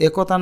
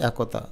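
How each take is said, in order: First: একতা as 'e-kaw-ta'; spelling pronunciation. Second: একতা as 'ae-ko-ta'; rounded 'ko' inside একতা; natural pronunciation. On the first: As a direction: read একতা with close এ. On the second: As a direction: say একতা with open অ্যা. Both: Shown as a demonstration. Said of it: "একতা না বলে একতা".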